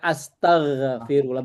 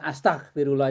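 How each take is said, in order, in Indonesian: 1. Bunyi gh mengalir terus. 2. Bunyi gh terputus tiba-tiba. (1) "dia mengalir kayak gha itu mengalir. Kayak astaghfirullah" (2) "bukan astaghfirullah itu salah"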